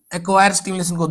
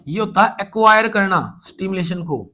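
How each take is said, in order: First: acquire set apart and leaned on; stress on acquire. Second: Said in the usual way. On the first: Shown as a demonstration. Teacher to students, repeating the answer with weight on acquire. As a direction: press the word acquire. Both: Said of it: "teacher repeats key answer".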